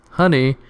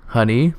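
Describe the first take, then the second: First: Honey? called higher, more urgent; a sharper second call that falls off; calling louder. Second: Calling up the stairs, questioning; a hesitant rising call of Honey?. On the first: Husband calls again for his wife, higher and more urgent. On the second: Husband calls his wife upstairs, hesitant rising call. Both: Acted.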